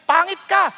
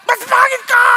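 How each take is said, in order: First: Raised, taunting jab; opening jab of a mock quarrel; mock insult. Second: High, loud shouted comeback; shouting back an even worse insult; mock shouted retort. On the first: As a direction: fling the insult back. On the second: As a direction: top the insult at full voice. Escalating retort in a quarrel.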